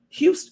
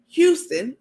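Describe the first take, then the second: First: The word is said loosely, imitating someone's speech. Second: The word is said crisply, with careful enunciation. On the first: It copies how someone else talks. The speaker calls it wrong. "I start talking like her. I just said Houston" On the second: It is the speaker's own careful pronunciation. The speaker calls it right. "let me use my teeth and enunciate"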